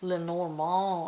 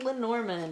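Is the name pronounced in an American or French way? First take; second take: French; American. First: The name is said with French-style sounds. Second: The name is said with American English sounds. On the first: "the way that it's supposed to be pronounced" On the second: "I'm pronouncing it the way that Americans pronounce it"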